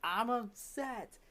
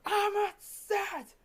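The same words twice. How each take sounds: First: Acted-out student admitting it slowly, high-pitched; drawn-out, high "I'm upset"; reluctant upset admission. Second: Very high, slow, strained cry; acted-out student wailing it louder; louder upset cry. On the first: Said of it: "tell the class you're upset". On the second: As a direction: stretch it out in a high, raised voice.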